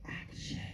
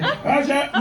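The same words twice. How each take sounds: First: It is said in a gentle, calm way. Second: It is said in a harsh, aggressive way.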